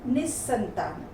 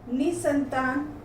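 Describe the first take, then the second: First: Said in the usual way. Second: निसंतान with a single "s"; slow निसंतान as "ni-santaan"; mispronounced. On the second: Shown as a demonstration. Teacher reads the error list, mispronounced निसंतान with single "s". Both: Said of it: "व्यंजन संबंधी हैं".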